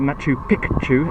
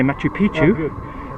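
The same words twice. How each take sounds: First: Picchu is said with a k sound, like Pikachu. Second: Picchu is said without the k sound of Pikachu. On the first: It means old mountain. The speaker calls it right. "as in Pikachu" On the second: It means something rude. The speaker calls it wrong. "you're actually saying old penis"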